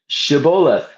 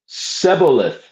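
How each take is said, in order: First: The word begins with a 'sh' sound. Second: The word begins with an 's' sound. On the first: The speaker belongs to the friendly tribe. The speaker calls it right. "that they should pronounce the word Shibboleth" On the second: The speaker belongs to a different, enemy tribe. The speaker calls it wrong. "being a different tribe, pronounced it Seboleth"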